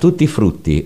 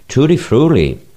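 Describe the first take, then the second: First: It is said with an Italian pronunciation. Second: It is said with an American pronunciation. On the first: "Si intitola" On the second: "o come pronunciava lui"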